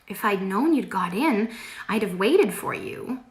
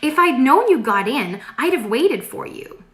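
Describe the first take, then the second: First: It is said flatly, without happiness. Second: It is said in a happy voice.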